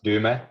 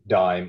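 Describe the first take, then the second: First: The name is pronounced the Finnish way. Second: The name is pronounced the English way. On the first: The speaker calls it right. "as uh, Finnish pronounce it" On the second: The speaker calls it wrong. "it's not like dime or anything"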